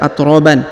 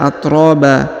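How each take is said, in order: First: The word ends with a final n sound. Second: The word ends on a long vowel without n. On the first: The speaker calls it wrong. "tidak dibaca atroban ya" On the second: The speaker calls it right. "kalau kita berhenti di sini maka kita baca atroba"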